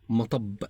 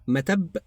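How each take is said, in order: First: The middle t sound is emphatic and heavy. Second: The middle t sound is plain and light.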